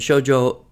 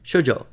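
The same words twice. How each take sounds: First: Both syllables are long, four beats in total. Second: Both syllables are short, two beats in total. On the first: "two beats on the first and two on the second" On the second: "So shoujo is two beats"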